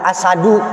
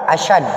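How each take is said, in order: First: The middle has plain s without h. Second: The middle has sh without h. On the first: It means lion. "kita agak ringankan" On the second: It means heavier. "benar shin, tapi tidak ada hak di tengahnya"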